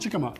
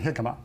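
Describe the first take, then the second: First: The word begins with a hard J sound. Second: The word begins with an H sound. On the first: The speaker calls it wrong. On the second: The speaker calls it right.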